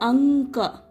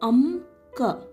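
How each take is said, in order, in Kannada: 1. k ಮುಂಚಿನ ಮೂಗಿನ ಧ್ವನಿ n ನಂತೆ ಕೇಳಿಸುತ್ತದೆ. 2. k ಮುಂಚಿನ ಮೂಗಿನ ಧ್ವನಿ m ನಂತೆ ಕೇಳಿಸುತ್ತದೆ. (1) "we will make sound an, anka" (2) "we will not read it as amka"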